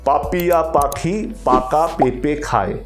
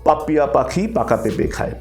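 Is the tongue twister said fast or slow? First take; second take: slow; fast. First: The phrase is spoken slowly and carefully. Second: The phrase is spoken at a quicker pace. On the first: "প্রথমে slow শুরু করবেন... একদম এই গতিতে শুরু করবেন" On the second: "আস্তে আস্তে আস্তে গতি তোলা, ঠিক আছে? যেমন"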